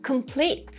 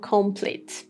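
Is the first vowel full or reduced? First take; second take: reduced; full. First: The first vowel is a reduced schwa. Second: The first vowel is a full vowel. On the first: The speaker calls it right. "No, it is complete" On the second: The speaker calls it wrong. "We don't have complete or complete as you see it"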